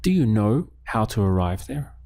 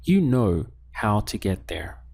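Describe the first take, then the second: First: "Do you know how to arrive there" rising at the end; question intonation. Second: "You know how to get there" stated with a falling end; statement intonation. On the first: Teacher prompts learners to ask it, question intonation. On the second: Teacher gives learners a sentence to translate, statement intonation. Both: Shown as a demonstration. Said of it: "Now, let's ask the question".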